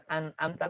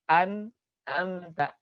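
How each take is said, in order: First: An'amta with a plain glottal stop; the wrong way, no ain; wrong take. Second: An'amta slow with a throat-squeezed ain; slow model an'amta; correct ain. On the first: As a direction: mistaken an'amta. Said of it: "Bukan an'amta". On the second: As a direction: stretch an'amta, tight ain. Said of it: "tapi an'amta". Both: Shown as a demonstration.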